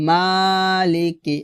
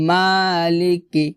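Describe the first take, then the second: Both takes have the same delivery.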